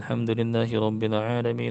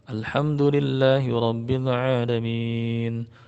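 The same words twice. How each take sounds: First: It is recited quickly. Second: It is recited somewhat slowly. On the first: "hadr, baca Quran cepat" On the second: "Tajwir ini agak lambat sedikit"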